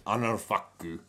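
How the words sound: It is said in a Japanese accent.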